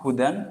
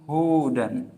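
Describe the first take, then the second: First: The first vowel is said short. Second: The first vowel is said long. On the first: It means guidance. "yang pertama itu artinya adalah petunjuk" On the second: "yang kedua adalah Yahudi"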